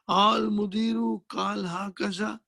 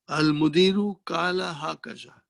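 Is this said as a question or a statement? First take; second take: question; statement. First: It is said with a questioning tune. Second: It is said with a plain statement tune. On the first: Asking whether the director said this. "instead of that you say ... Change the tone" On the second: The director said this. "The Mudir said like this"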